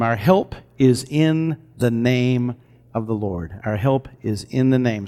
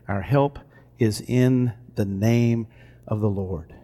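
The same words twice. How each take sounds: First: Solemn declaration. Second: Slow, hushed reading of the verse; soft scripture reading. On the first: Preacher declaring scripture to congregation, slow and reverent. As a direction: declare the promise slowly and reverently. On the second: Preacher softly reads Psalm verse aloud, hushed and slow. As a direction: let the words fall quietly, savoring each. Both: Acted.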